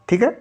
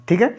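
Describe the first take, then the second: Both takes have the same delivery.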